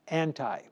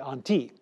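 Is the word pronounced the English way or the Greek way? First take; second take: English; Greek. First: The word is pronounced the English way. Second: The word is pronounced the Greek way. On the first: "I'll say it with an English pronunciation" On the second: "in Greek, you would say anti"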